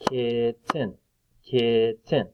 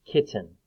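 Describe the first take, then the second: First: "kitten" in two separate beats; split into syllables. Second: Said in the usual way. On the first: Shown as a demonstration. Teacher clapping syllables for children, "kitten" split in two. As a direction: break "kitten" apart, kit, ten. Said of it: "clap out the different parts". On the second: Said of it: "What is that right there?".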